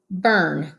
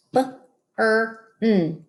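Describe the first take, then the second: First: Said in the usual way. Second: B, er, n segmented; sounded out. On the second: Shown as a demonstration. Teacher sounding out B-er-n for kids. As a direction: sound out burn as B-er-n. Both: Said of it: "sounding out".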